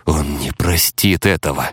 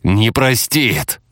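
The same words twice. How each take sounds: First: Restrained, tight-jawed warning; said through teeth. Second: ПРОСТИТ drawn out slowly and pitched higher; slow, raised insistence on «простит»; emphatic repeat. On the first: Hunter warning the others, tightly restrained. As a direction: hold it back, through the teeth. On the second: Hunter repeating his warning, «простит» slow and raised. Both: A narrator's reading. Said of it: "процедил Лавелас".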